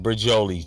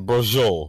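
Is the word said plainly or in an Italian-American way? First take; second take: plainly; Italian-American. First: The word is said in a plain way. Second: The word is said in an Italian-American way.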